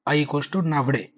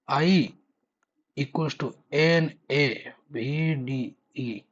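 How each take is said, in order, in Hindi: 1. अक्षर एक साथ जोड़कर एक शब्द की तरह बोले जाते हैं। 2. अक्षर एक-एक करके बोले जाते हैं।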